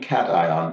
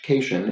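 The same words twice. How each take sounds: First: The first syllable sounds like 'cat'. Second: The first syllable sounds like 'kay'. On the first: The speaker calls it right. "It is simply cation, like the animal" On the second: The speaker calls it wrong. "which I pronounced cation, is not pronounced like vacation"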